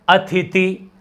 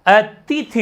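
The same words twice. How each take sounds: First: अतिथि with "th" before "t", "athiti"; wrong form of अतिथि. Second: Slow अतिथि with "t" before "th"; correct form अतिथि. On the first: Teacher showing the common slip, slow अतिथि as "athiti". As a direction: swap the consonants of अतिथि, slowly. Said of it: "अपन बोलते ही ऐसा है". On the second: Teacher correcting the slip, slow अतिथि as "a-ti-thi". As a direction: sound "a-ti-thi" slowly in अतिथि. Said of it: "अतिथि होता है". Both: Shown as a demonstration.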